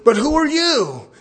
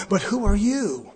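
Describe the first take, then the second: First: The devil's mocking challenge, higher and louder; louder taunt. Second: Taunting devil. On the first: Devil mocking the exorcist, loud and higher. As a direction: throw the question back with a sneer. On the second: Retold or imitated. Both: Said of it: "And he says".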